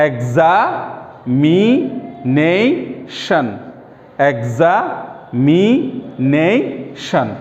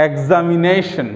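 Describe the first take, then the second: First: এক্সামিনেশন very slowly as exa, mi, nei, shon; split into syllables. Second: Said in the usual way. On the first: Shown as a demonstration. Teacher demonstrating the next polysyllable, slow separate syllables. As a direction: stretch each part of এক্সামিনেশন, pausing between. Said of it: "ভেঙে ভেঙে ওই শব্দটাকে উচ্চারণ করার". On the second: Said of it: "পরেরটা দেখো".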